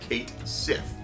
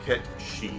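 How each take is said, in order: First: It is said as 'Kate Sith' with an English reading. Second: It is said as 'Ketchi' with a Japanese reading. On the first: The speaker calls it right. "the uh, English way of saying that" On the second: The speaker calls it wrong. "Ketshi is how they pronounced it"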